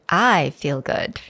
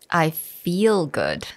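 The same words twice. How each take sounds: First: The stress is on "I". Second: The stress is on "feel".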